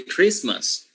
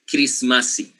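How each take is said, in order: First: The word ends in an s sound. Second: The word ends in an added vowel sound. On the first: "they don't say Christmas" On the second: "In Samoan, Christmas is Christmasi"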